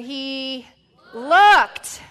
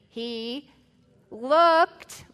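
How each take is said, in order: First: It is said with stronger, louder force. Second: It is said with ordinary, softer force. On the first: The speaker calls it right. "we're going to need to say it stronger than that" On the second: The speaker calls it wrong. "say it with me"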